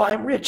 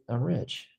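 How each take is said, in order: First: It sounds forced and insistent. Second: It sounds relaxed and self-assured.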